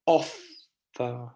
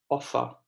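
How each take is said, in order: First: "Offer" split, strong OFF, then a quieter fer; quieter last syllable. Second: Said in the usual way. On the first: Shown as a demonstration. Teacher demonstrates unstressed endings, syllables split apart. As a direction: break "Offer" in two and soften the end. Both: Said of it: "the end part is much quieter".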